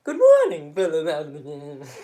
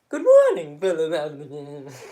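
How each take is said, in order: First: It is said in an imitated German accent. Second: It is said in an imitated German accent.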